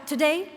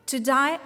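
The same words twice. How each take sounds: First: Today, said again higher with a rising lift; emphatic repeat. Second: Said in the usual way. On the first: Acted. Speaker addressing graduates, repeating today, with rising emphasis. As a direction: lift the second today, to stress the refrain.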